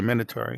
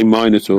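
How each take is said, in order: First: Minotaur said as MIN-o-tor, short "i"; pronunciation. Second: Minotaur said as MY-no-tor, long "my"; pronunciation. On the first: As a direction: Minotaur with a short "i" first vowel. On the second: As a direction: Minotaur with a long "eye" first vowel. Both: Shown as a demonstration. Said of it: "we say".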